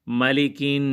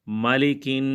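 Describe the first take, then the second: No difference in how they are said.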